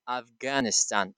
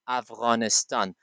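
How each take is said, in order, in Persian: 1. صامت میانی یک g ساده و سخت است. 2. صامت میانی یک صدای gh غلیظ است. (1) "they don't have غین in their uh, style of pronunciation" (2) "You should always say Afghanistan"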